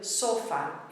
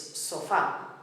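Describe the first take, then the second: First: The stress is on the first syllable. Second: The stress is on the last syllable. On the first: The speaker calls it wrong. "instead of sofá" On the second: The speaker calls it right. "it's sofá"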